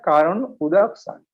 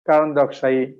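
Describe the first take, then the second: First: The two words are said separately. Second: The words are run together into one word. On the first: "কিন্তু উচ্চারণটা কারণ উদকশায়ী" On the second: "এগুলো একসঙ্গে উচ্চারণ করলে"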